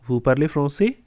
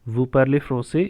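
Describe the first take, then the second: First: The voice rises at the end. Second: The voice falls at the end.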